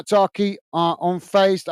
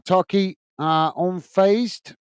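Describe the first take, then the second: First: Talkie said carefully as the corrected reading of the username; careful corrected Talkie, unfazed; corrected name. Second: Turkey, unfazed read haltingly as a guess at a username; Turkey said like the country, unsure of the handle; unfazed stretched slowly, puzzling over the name; misreading the name. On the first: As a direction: fix the name to Talkie, unfazed drawn out slowly. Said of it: "But yeah, sorry". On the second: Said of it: "just checking I'm reading your name correctly". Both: Real, not acted.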